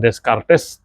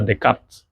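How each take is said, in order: First: Every letter is read as it is written. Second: It is read the French way, letters silenced. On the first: The speaker calls it wrong. "tulisan Descartes tidak terbaca seperti itu" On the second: The speaker calls it right. "tapi dibaca Descartes"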